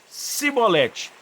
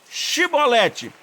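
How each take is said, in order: First: The word begins with an s sound. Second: The word begins with an sh sound. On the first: The accent reveals the speaker as an Ephraimite enemy. The speaker calls it wrong. "E eles diziam Cibolete. E quem não conseguia dizer Chibolete" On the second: The speaker is a Gileadite, on the same side. The speaker calls it right. "diz, pois, Chibolete"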